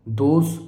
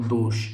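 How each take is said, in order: First: First दोष ending in a plain "s"; wrong form. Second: Second दोष ending in "sh"; correct form. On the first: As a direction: say दोष as "dos". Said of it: "ये गलत हो गया". (दोष को "दोस" बोलें) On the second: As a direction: say दोष as "dosh". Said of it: "ये सही हो गया". (दोष में "ष" साफ़ बोलें) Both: Shown as a demonstration.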